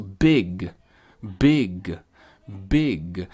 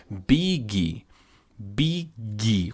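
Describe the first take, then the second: First: BIG with an almost mute final G; low, separate BIG, no vowel after the G; careful English BIG; barely released G. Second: BIG said slowly as "bee-ghee"; Portuguese-style big. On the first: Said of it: "só tá pronunciando o G". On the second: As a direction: add a full "ghee" syllable to BIG. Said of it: "seguindo as fonéticas do português". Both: Shown as a demonstration.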